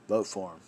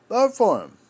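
First: Said in the usual way. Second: High mocking repeat. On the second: A voice mocking voters, high and loud. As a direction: jump way up and louder, sneering.

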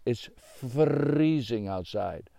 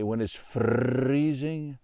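First: "freezing" with a rolled R, said slowly. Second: "freezing" drawn out with a rolled R; slow, roll the R of "freezing". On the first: Shown as a demonstration. Lumberjack insists on his own way of saying "freezing". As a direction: stretch "freezing" and trill its R. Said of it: "but I say freezing". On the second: Acted. Lumberjack explaining winter cold, rolling "freezing". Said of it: "why do you talk like that".

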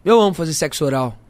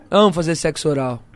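First: Said in the usual way. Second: Laughing. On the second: Shown as a demonstration.

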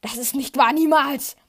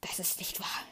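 First: Loud, rising to a cry on niemals; panicked shout. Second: Stunned, breathless whisper; panicked whisper. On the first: Luke screams his denial at Vader. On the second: Luke denies Vader's words in a shocked whisper. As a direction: whisper it in disbelief. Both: A narrator's reading. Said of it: "sagt Luke panisch".

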